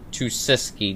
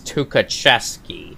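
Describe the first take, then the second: First: The name is said with three syllables. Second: The name is said with four syllables. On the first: The speaker calls it wrong. "last part I pronounce as Tusiski" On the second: The speaker calls it right. "I looked it up and it's Tukacheski"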